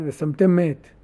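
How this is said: The final m runs straight into the next word. It sounds like placing a dead person. The speaker calls it wrong. "כקורא מותם. או מת, כן? ושמתם מת. חס ושלום"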